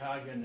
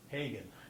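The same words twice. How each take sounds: First: Hagen is pronounced the German way. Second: Hagen is pronounced the English way. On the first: This is how Germans say the city's name. The speaker calls it wrong. "the Germans say Hagen" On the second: This is the preferred way to say the city's name. The speaker calls it right. "the answer is Hagen"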